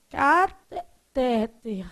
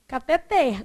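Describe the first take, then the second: First: CATETER stressed on the middle syllable, caTEter; slow, halting CATETER with stress on TE; wrong stress. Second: CATETER stressed on the final syllable, cateTER; stress on last syllable. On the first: Teacher shows students how the tongue trips, wrong stress. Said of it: "como é que você quer ler a primeira?". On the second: Teacher tells students how to read cateter, final stress. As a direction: land firmly on the open TER of CATETER. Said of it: "você tem que ler o quê?". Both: Shown as a demonstration.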